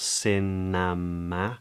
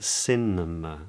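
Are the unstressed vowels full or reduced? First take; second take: full; reduced. First: The unstressed vowels are said as full vowels. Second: The unstressed vowels are reduced to schwa. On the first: The speaker calls it wrong. "not cinema" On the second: The speaker calls it right. "notice how the schwa uh, is present"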